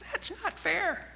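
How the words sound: It is said in a high, squeaky voice.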